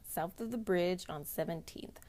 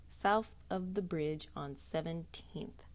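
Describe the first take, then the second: First: It is read at normal speed. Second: It is read slowly and carefully.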